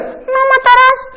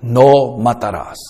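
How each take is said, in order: First: Very high falsetto, mocking; ridiculous squeaky voice. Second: Low, slow and grave, like God speaking; solemn divine command, slow and low; deep authoritative voice. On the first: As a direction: squeak it out in a silly high pitch. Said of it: "eso es ridículo". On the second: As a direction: lower the voice and lay down the commandment. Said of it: "¿qué tono le pondrías?". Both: Shown as a demonstration.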